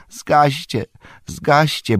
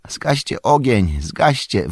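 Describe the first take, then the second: First: High-pitched urgent plea; pleading. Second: Urgent, drawn-out call. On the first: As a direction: beg them desperately. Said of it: "błagał Merry". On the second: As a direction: cry out a pressing order. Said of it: "wołał Merry". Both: A narrator's reading.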